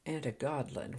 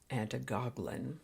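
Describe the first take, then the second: First: The word has a D sound in the middle. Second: The word has a G sound in the middle. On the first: "pronounces it antigoglin with a D" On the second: "I've always heard it as antigoglin"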